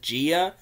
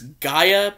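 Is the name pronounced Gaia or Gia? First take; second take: Gia; Gaia. First: The name is pronounced as Gia. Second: The name is pronounced as Gaia. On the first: The speaker calls it wrong. "for some reason she pronounces it Gia" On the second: The speaker calls it right. "the correct pronunciation is Gaia"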